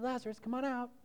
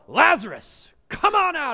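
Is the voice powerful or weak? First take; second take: weak; powerful. First: The call is soft and weak. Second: The call is loud and powerful. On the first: The call carries no authority. The speaker calls it wrong. "It wasn't a weak little wimpy voice" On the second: The call is a commanding order. The speaker calls it right. "It was a powerful"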